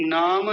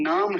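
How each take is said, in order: First: नाम as naa-ma; wrong added vowel. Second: नाम as naam, no vowel after m; correct closed m. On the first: Teacher correcting a slip, added-vowel mispronunciation. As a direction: open the final m of नाम into "ma". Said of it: "नाम नहीं है". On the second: Teacher giving the right form, closed-m pronunciation. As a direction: close the lips on the end of नाम. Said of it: "नाम है, केवल नाम". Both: Shown as a demonstration.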